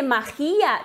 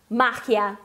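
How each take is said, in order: First: "magia" drawn out as ma-KHI-a; stress on the I. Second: "magia" as MA-khya, first syllable stressed. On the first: Teacher shows a hypothetical accent mark, stress on the I. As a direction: lean on the I of "magia". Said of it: "teria que ter o acento no i". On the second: Teacher corrects the learners' word, stress on MA. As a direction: hit the MA of "magia", Spanish J. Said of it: "a sílaba tônica é no ma". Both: Shown as a demonstration.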